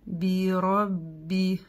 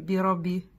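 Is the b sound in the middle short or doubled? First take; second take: doubled; short. First: The middle b is held, carrying two letters' weight. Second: The middle b is short, like a single consonant. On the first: The speaker calls it right. "Показываем, что здесь вес двух букв, а не одной" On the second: The speaker calls it wrong. "мы не говорим би-ра-би"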